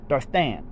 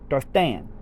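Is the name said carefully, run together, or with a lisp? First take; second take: with a lisp; with a lisp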